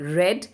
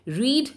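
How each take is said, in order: First: The vowel is short, like 'red'. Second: The vowel is long, like 'reed'. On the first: It is the past tense. "लाल वाले रीड को आप रेड पढ़ेंगे, ये past वाला है" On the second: It is the present tense. "ये एक present tense है"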